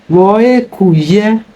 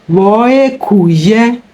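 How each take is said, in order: Both takes have the same delivery.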